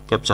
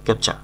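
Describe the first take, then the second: First: The word ends with an audible r sound. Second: The word ends without any r sound. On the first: The speaker calls it wrong. "ক্যাপচার হবে না" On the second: The speaker calls it right. "সঠিক উচ্চারণ ক্যাপচা"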